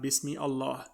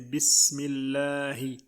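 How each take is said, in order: First: The words are said apart, with Allah's vowel. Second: The words run together into one linked form. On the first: The speaker calls it wrong. "not Bismi Allah" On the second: The speaker calls it right. "here we say Bismillahi"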